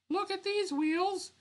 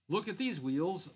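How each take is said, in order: First: It is said in a put-on Lady J voice. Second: It is said in the narrator's own voice.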